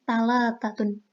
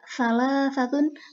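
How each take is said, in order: First: The word is said with plain 't' sounds. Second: The word is said with 'th' sounds. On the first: This is the Egyptian colloquial form. "kemudian diganti ta" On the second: This is the older standard form. "fonem tha"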